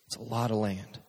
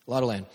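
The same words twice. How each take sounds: First: A softer, low throwaway; quiet aside. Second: Said in the usual way. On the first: Acted. Preacher musing to crowd, quietly understated. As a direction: drop it under your breath.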